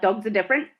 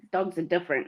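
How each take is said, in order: First: Rising, doubtful "Dogs are different"; questioning quote. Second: Said in the usual way. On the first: Retold or imitated. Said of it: "you were like". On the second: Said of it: "you were saying".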